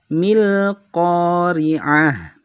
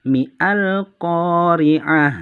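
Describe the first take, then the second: First: It runs straight into 'l' with no glottal stop. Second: A glottal stop is pronounced before 'al'. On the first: The speaker calls it right. "menjadi langsung pada lam sukun" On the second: The speaker calls it wrong.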